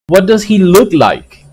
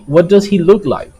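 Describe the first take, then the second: First: What does he look like with the pitch falling at the end; falling question tune. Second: What does he look like quicker, falling at the end; falling question tune. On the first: Teacher modelling falling intonation for English learners. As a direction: let "like" drop down like a WH question. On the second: Teacher repeating the model question for students. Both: Shown as a demonstration. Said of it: "intonation is very important".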